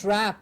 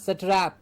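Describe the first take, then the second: First: The s, t and r run together without a vowel. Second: A vowel is inserted between s and t. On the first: The speaker calls it right. "strap and not satrap" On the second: The speaker calls it wrong. "and not"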